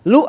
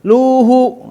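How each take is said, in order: First: The vowel is short, not drawn out. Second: The vowel is drawn out long. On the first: The speaker calls it right. "Lu aja gitu" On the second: The speaker calls it wrong. "jangan luhu"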